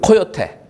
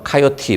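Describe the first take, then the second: First: It is said the Korean way, ko-yo-te. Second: It is said the American way, ka-yo-ti. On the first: "코요테로 하겠습니다" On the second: "우리 미국식 발음은 카요티"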